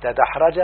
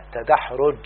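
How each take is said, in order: First: تدحرج said "tadahraja", open a endings; verb form. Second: تدحرج said "tadahruj", with u after the r; damma on fourth letter. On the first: Teacher citing the verb before its noun, تدحرج as "tadahraja". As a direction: say تدحرج as ta-DAH-ra-ja, rising. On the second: Teacher showing the damma rule, تدحرج as "tadahruj". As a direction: say تدحرج as ta-DAH-ruj. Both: Shown as a demonstration. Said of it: "الحرف الرابع يضم".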